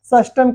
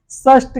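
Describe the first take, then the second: First: षष्टम with an added 'am' ending; wrong pronunciation. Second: षष्ठ stopping at 'th', no m; correct pronunciation. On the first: Teacher showing the faulty word, ending in 'tam'. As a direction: close षष्टम on an m. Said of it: "गलत". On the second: Teacher giving the right word, without the 'am'. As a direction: end षष्ठ right on the consonant cluster. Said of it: "सही है". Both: Shown as a demonstration.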